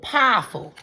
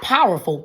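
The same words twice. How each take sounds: First: The first syllable is drawn out as 'pah'. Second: The first syllable is said as a plain 'pow'. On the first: The speaker calls it right. "P A H" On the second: The speaker calls it wrong. "not powerful"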